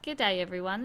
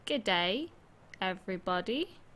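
First: It is said at normal speed. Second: It is said slowly with more emphasis.

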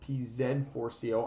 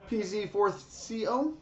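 First: The letter Z is said as 'zed'. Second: The letter Z is said as 'zee'.

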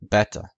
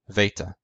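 First: It is said with the classical Greek pronunciation. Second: It is said with the Koine Greek pronunciation. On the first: "In classical Greek, it was pronounced beta" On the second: "In Koine Greek, it was pronounced veta"

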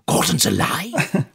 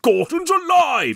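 First: It is level and restrained, with low energy. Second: It is loud and booming, with big energy. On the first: This is the plain way the line was delivered in the film. "He just says, ... he's much more that level" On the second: This is the famous over-the-top version done on shows. "when we've had him on the show and he does that"

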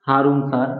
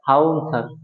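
First: The r sound in Harun is pronounced. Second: The r sound in Harun is dropped.

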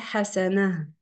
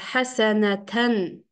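First: The word ends with a plain -a. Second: The word ends with the -tan ending. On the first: This is how the word is read when stopping. "при остановке мы можем прочесть хасана" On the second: This is the full form of the word. "тамарбута э, хасанатан"

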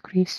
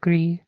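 First: The word is not pronounced the French way. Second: The word is pronounced the French way. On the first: The speaker calls it wrong. "It's not Gris" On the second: The speaker calls it right. "it's a French-based name, pronounced Pinot Gris"

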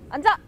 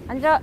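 First: The command sounds firm and clear. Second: The command sounds soft and hesitant. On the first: The speaker calls it right. "이렇게 명확하게 이제 명령을 입혀주셔야 돼요" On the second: The speaker calls it wrong. "이것보다는"

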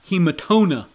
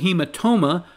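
First: The last syllable begins with an n sound. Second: The last syllable begins with an m sound. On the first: The speaker calls it wrong. "not hematona" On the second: The speaker calls it right. "it is also hematoma"

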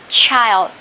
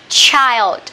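The two takes are said the same way.

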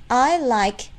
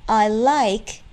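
Both takes have the same delivery.

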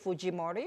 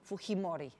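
First: The J is said as a hard English J. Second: The J is said as a soft breathy sound. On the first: The speaker calls it wrong. "you wouldn't say Fujimori" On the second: The speaker calls it right. "that J is soft"

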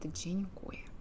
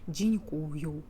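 First: The word ends in a 'ye' sound. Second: The word ends in a 'yu' sound. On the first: The speaker calls it right. "Тут «дзінькує»" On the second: The speaker calls it wrong. "багато українців кажуть «дзінькую», але це неправильно"

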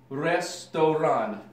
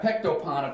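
First: The word is read with R, S and R sounds. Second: The word is read with P, C and P sounds. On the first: The Cyrillic letters are read with their Russian sounds. The speaker calls it right. "if she knew the Cyrillic alphabet and the Russian phonetics, it would be restoran" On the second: The Cyrillic letters are read as if they were Latin letters. The speaker calls it wrong. "So you got pectopon, according to my sister"

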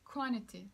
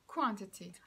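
First: It is said in an American accent. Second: It is said in a British accent. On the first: "Çünkü Amerikalılar quantity diyor" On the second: "bu biraz İngiliz aksanıyla söylemiş oldum quantity'yi"

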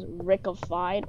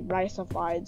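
First: The name begins with a sound like 'rick'. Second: The name begins with a sound like 'rice'. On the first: The speaker calls it wrong. "everyone tried to spell it as Rickified or pronounce it as Rickified" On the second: The speaker calls it right. "when it's actually Riceified"

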